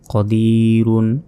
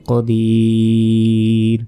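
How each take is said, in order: First: The word ends with a full 'run' syllable. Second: The word ends on a bare 'r' sound. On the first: The reading continues without a stop. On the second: The reader stops at this word.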